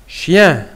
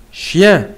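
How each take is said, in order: Both takes have the same delivery.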